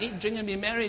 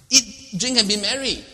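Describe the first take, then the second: First: Said in the usual way. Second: Loud, high party slogan; mock rallying cry. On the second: Preacher hamming up the catch cry, loud. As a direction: shout it like a toast.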